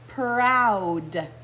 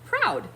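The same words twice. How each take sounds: First: The word is said slowly and drawn out. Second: The word is said a little more quickly. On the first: "Can you say that slowly with me?" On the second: "Now let's say it a little faster"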